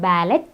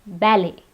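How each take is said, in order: First: The T sound is pronounced. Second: The T sound is silent. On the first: The speaker calls it wrong. "It's not ballet" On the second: The speaker calls it right. "the T is silent"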